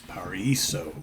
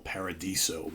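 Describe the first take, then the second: First: The word has no d sound before the last syllable. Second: The word has a d sound before the last syllable. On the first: The speaker calls it right. "but it's Paraiso" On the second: The speaker calls it wrong. "I always want to say El Paradiso"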